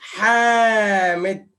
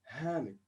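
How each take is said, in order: First: The first H is a throaty Arabic sound. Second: The first H is a plain English sound. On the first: "in Arabic we say it Hamid" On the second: "you say in English Hamid"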